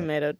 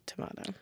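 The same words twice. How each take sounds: First: Tomato with a long AY, "to-MAY-to"; American pronunciation. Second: Tomato with a broad AH, "to-MAH-to"; British pronunciation. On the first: Co-host contrasting two sayings, American "Tomato". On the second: Co-host contrasting two sayings, British "tomato". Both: Shown as a demonstration. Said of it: "British people definitely say tomato".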